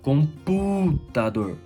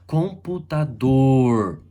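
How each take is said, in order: First: The stress is on the third-to-last syllable. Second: The stress is on the last syllable. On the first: "proparoxítona" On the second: "oxítona"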